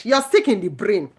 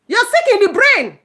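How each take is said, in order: First: Said in the usual way. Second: Much higher and louder, punching "sick"; shouted insult. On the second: Real, not acted. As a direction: yell it at the people telling others to leave.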